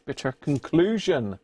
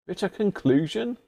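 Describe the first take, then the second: First: Said in the usual way. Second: "Bitter conclusion" pitched up, rising like a question; questioning echo. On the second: Real, not acted. Puzzled by the label, "Bitter conclusion" as rising question. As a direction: query "Bitter conclusion" with a high rising end. Queries the label's odd phrase.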